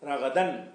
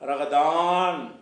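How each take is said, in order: First: The vowel in the last syllable is kept short. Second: The vowel in the last syllable is drawn out long. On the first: The speaker calls it right. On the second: The speaker calls it wrong. "ரகதான் அப்படி சொல்லாமல்"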